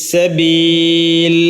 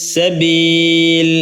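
No difference in how they are said.

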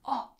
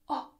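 No difference in how they are said.

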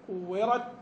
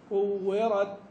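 First: The final t is held closed, with no breath. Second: The final t is released with a puff of breath. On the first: "كورت الاول" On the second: "وبعدين بعد كده تتنفس"

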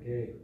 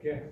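First: The vowel is said long. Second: The vowel is said short. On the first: The speaker calls it wrong. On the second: The speaker calls it right. "make it short"

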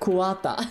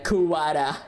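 First: The name is said with Japanese-style pronunciation. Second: The name is said with English-style pronunciation. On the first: "Instead of" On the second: "the English voice actor being like"

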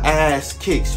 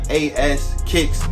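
First: The first part is said as one word. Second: The first part is spelled out as letters. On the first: The speaker calls it wrong. "Not ass kicks" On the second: The speaker calls it right. "Like A-S kicks"

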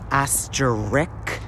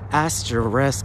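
First: The word is pronounced differently from its spelling. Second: The word is pronounced as it is spelled. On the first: The speaker calls it wrong. "I always pronounced it asterisk" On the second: The speaker calls it right. "the letters are actually A-S-T-E-R-I-S-K"

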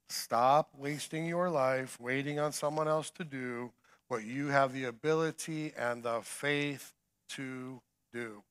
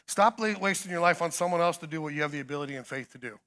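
First: It is said at a slower pace. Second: It is said at a faster pace.

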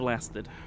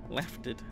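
First: The word is said with an s sound. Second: The word is said with an f sound. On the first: The speaker calls it right. "Instead of lasted" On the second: The speaker calls it wrong. "Me saying lafted is, you know, tip of the iceberg stuff of how badly some people pronounce some words"

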